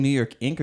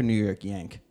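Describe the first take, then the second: First: "Ink" with a short i vowel; "Ink", starting straight on a short i; Ink pronounced correctly. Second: "Yank" with a y sound and an open a; "Yank", as misheard from "Ink". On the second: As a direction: say "Yank" to rhyme with "bank". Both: Shown as a demonstration. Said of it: "Are you saying New York Ink or New York Yank?".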